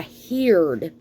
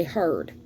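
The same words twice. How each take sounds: First: HEARD said as "heerd", with a long ee; daddy's old-school pronunciation. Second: Said in the usual way. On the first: Retold or imitated. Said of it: "My daddy said". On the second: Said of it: "did not say heard".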